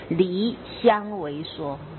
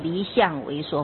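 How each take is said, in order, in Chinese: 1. 这个词组在第一个字后面断开。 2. 这个词组在第二个字后面断开。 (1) "不是，是离相为说，是离开互相矛盾互相违背的说法" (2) "断句要断好，不能说离相为说"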